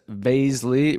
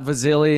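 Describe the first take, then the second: First: The name rhymes with Paisley. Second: The name does not rhyme with Paisley. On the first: The speaker calls it right. "rhymes with Paisley" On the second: The speaker calls it wrong. "Not Vaszily"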